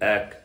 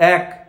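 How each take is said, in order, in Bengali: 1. শব্দটি পেট থেকে নিচু স্বরে বলা হচ্ছে। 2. শব্দটি গলার মাঝামাঝি স্তর থেকে বলা হচ্ছে। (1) "পেট থেকে বলছি" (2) "গলা থেকে বলছি"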